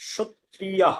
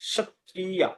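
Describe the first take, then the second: First: It is said in the Sanskrit style. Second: The same.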